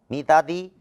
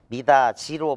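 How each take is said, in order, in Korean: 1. 마지막 음절은 d 소리로 시작해요. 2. 마지막 음절은 j 소리로 시작해요.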